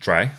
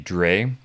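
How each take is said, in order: First: The vowel sounds like the one in 'dry'. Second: The vowel sounds like the one in 'day'. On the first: The speaker calls it right. "It's actually pronounced Dry" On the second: The speaker calls it wrong. "I pronounced it React three Dre. I apologize for that"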